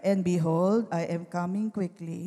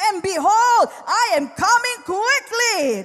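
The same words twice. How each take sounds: First: It is said in a flat, unexcited tone. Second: It is said excitedly, almost shouting.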